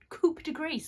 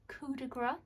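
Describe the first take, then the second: First: The first word ends with a p sound. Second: The first word ends in a vowel sound. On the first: The speaker calls it wrong. "I said coupe instead of coup" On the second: The speaker calls it right.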